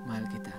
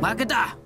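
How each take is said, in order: First: It is said in a sad tone. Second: It is said in an angry tone.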